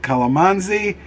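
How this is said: It is said with a Western pronunciation. "I hear Westerners say"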